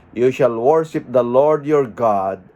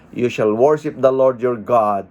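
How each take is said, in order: No difference in how they are said.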